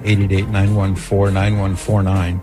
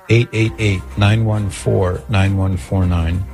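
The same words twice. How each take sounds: First: The number is said fast. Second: The number is said slowly.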